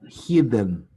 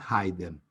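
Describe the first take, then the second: First: The first vowel is a short i sound. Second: The first vowel is a long eye sound. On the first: The speaker calls it right. "the past participle is hidden" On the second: The speaker calls it wrong. "not hidden"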